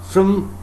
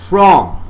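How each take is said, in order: First: The word has a reduced schwa vowel. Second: The word has a full, clear vowel. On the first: "So you can see f-r-a-m. So here we find the role of schwa sound" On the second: "That is not a weak form. I am saying from"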